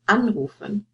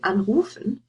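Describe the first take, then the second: First: The stress is on the first syllable. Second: The stress is on the second syllable. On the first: The speaker calls it right. "You would say" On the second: The speaker calls it wrong. "You wouldn't say"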